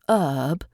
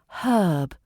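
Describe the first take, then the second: First: The word starts without an H sound. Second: The word starts with a clear H sound. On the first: The speaker calls it wrong. "It's not herb" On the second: The speaker calls it right. "pronounce your H's"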